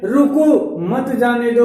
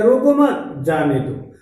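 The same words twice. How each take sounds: First: "रोको," then "मत जाने दो" as one group; slow, break straight after रोको; pause after रोको. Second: "रोको मत," then "जाने दो" apart; lower, falling, break straight after मत; pause after मत. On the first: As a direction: set रोको apart from मत जाने दो. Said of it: "एक वाक्य में". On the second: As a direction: join रोको मत, separate off जाने दो. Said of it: "और वहीं दूसरा वाक्य है". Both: Shown as a demonstration.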